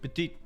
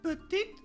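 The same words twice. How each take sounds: First: It is said in a low voice. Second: It is said in a high voice.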